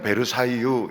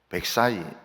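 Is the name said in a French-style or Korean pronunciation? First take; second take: Korean; French-style. First: It is said with a Korean-style pronunciation. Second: It is said with a French-style pronunciation. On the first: This is how Koreans say the name. "우리는 베르사유 이러지만은" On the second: This is how French and American people say the name. "프랑스 사람이나 어, 미국 사람들은 어, ... 백사이 이렇게 합니다"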